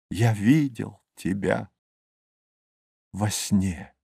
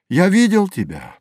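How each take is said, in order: First: Soft, lowered, with long pauses; wistful, fading. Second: High pitch, falling away at the end; rapturous recollection. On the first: Narrator recalls the kingdom seen in a dream, fading. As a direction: let it die away softly. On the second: Narrator addresses the dreamed kingdom, rapturous. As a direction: lift it high in wonder. Opening refrain of the recited poem. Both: A narrator's reading.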